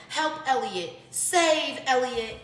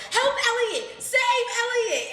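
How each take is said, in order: First: High, slow squawking parrot cry. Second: Very high, loud squawking parrot cry; screeching parrot. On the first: Parrot under covered cage crying for help, high and drawn out. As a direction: play the caged parrot begging to be saved. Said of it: "he would say". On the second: Parrot screaming for help as grandma slaps the cage, very high and loud. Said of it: "Elliot goes". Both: Retold or imitated.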